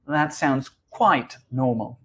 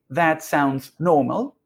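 First: "quite" stressed, the rest even. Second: Said in the usual way. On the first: Shown as a demonstration. Teacher shows students the adverb, stressing "quite". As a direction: lean on "quite" to add emphasis. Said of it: "we add this adverb to give it more emphasis". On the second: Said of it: "We could say".

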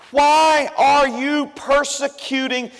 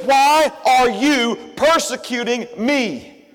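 First: "Why" drawn out slowly; stress on why. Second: "Why" and "me" slow and weighty; stress on me. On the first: Shown as a demonstration. Preacher repeating Jesus' words, slow with "Why" stressed. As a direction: lean on "Why" and take it slow. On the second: Acted. Preacher giving Jesus' true words, slow with "me" stressed. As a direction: land hard on "me", slowly. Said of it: "He said".

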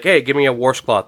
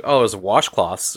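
First: "washcloth" said as "warshcloth", with an R; mom's Midwestern warsh. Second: Said in the usual way. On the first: Retold or imitated. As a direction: imitate mom asking for a "washcloth" as "warshcloth". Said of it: "a washcloth and a washcloth". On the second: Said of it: "were two different things".

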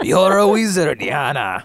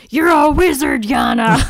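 First: Louder start, dropping off at the name; echoed Hagrid line. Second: Higher and louder, booming Hagrid; mock Hagrid. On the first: Acted. Co-host echoes the Hagrid joke, fading mock voice. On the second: Hagrid bursts in to tell the uncle he's a wizard, booming mock voice.

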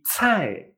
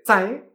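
First: Cai as "tsʰai" with an audible puff; strongly aspirated ts at the start of cai; cai with air. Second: Cai as "dzai", short unaspirated ts; cai without air. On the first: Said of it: "que sí que tiene aire". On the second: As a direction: start cai with no puff of air. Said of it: "que no tiene aire". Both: Shown as a demonstration.

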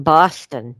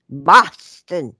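First: Said in the usual way. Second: Louder, exaggerated Boston pronunciation of "Boston"; attempted Boston accent. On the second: Shown as a demonstration. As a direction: try "Boston" the way a Bostonian would. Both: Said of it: "I can't even say it".

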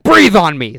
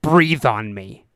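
First: Mock cop raising his voice; insistent cop order. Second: Slow, low-key command, words drawn out; measured cop order. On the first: Cop repeats order after "what?. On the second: Retold or imitated. Cop's first order, later repeated louder.

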